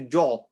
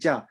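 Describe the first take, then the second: First: The vowel is said with a full, rounded mouth. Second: The vowel is said with a flat, empty mouth. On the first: The speaker calls it wrong. "We don't say jaw" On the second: The speaker calls it right. "We say ja"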